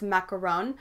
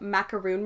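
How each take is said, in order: First: The last syllable is said as 'ron'. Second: The last syllable is said as 'roon'. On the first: This is how it is said in France. The speaker calls it right. "in France it's" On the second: This is how it is usually said locally. The speaker calls it wrong. "I'm probably pronouncing macaroon wrong"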